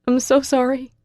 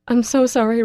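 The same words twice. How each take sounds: First: Higher, tearful repeated sorry; tearful apology. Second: High, loud tearful sorry; tearful apology. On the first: Girl repeating her apology to Russell in tears, tearful. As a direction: say it again, more broken. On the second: Girl crying her apology to Russell, tearful. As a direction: apologize through tears, not quite whispering. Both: A narrator's reading. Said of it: "I whisper as hot tears".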